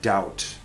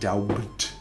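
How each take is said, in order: First: The B is silent. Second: A B sound is pronounced. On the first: The speaker calls it right. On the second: The speaker calls it wrong.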